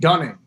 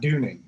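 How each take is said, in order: First: The first vowel sounds like 'uh'. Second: The first vowel sounds like 'oo'. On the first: The speaker calls it right. "It's Dane Dunning" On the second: The speaker calls it wrong. "not Dooning"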